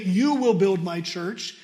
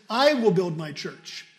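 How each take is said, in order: First: You stressed with a rising questioning tune. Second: I pushed hard at the start of I will build my church; stress on I. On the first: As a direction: hit You as if imagining the wrong promise. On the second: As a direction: lean on the word I, Christ and no one else. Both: Shown as a demonstration. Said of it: "He didn't look at the disciples and say".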